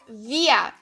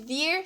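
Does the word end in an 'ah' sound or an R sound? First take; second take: ah sound; R sound. First: The word ends with a vowel 'ah' sound. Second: The word ends with a consonant R sound. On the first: The speaker calls it right. "fica via" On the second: The speaker calls it wrong. "Ao invés de vir"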